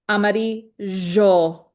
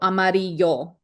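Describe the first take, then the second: First: The double L sounds like zh. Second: The double L sounds like y. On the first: This is how it is said in Uruguay. "in Uruguay, it's amarillo, jo, kind of like a like a J in French or like a Z H" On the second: This is the simplified version to be learned. "we are going to be learning the y version, so amarillo"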